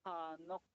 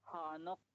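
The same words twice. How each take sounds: No difference in how they are said.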